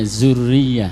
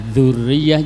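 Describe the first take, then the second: First: It begins with a plain 'z' sound. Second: It begins with a 'th' sound as in 'this'. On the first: The speaker calls it wrong. "jadinya zurriyah" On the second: The speaker calls it right. "Zal ini sering uh, dibaca zai jadinya"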